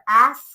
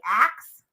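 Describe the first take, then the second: First: The word ends with an 'sk' sound. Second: The word ends with a 'ks' sound. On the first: The speaker calls it right. "Like over pronunciate your S" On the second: The speaker calls it wrong. "you say ax instead of ask"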